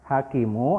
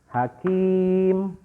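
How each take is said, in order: First: The word ends with a short u vowel. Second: The word ends on the consonant m. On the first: The reading continues past this word. "Yang tadinya hakimu" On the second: The reading stops at this word. "setelah diwakafkan dia akan menjadi hakim"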